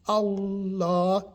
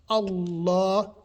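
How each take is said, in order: No difference in how they are said.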